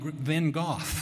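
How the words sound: The name is said in a British way. "In Britain, they call him Van Gogh"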